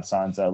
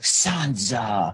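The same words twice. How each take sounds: First: Barely voiced creepy Baelish saying her name; just a trace of the creep, almost plain; mild creepy Baelish. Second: Lightly voiced creepy Baelish saying her name; a hint of Gollum, drawn out and sinister; creepy Gollum vibe. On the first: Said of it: "I'm like, "Oh my God". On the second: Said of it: "I was getting this Lord of the Rings Gollum vibe".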